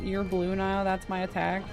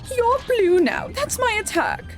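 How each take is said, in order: First: It is said in the speaker's normal voice. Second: It is said in a put-on queen voice.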